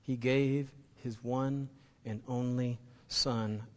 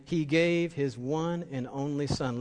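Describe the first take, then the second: First: He gave his one and only Son, slow and softer, gave drawn out; quiet repetition. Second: He gave his one and only Son, slow and weighty with a push on gave; slow emphasis. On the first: Pastor repeating the verse a last time, hushed and slow. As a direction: drop the volume and let gave linger. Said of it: "Let me say that one more time". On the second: Pastor repeating the key verse to the church, slow and emphatic. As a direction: lean into gave and take it slowly. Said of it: "Let me say this again". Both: Shown as a demonstration.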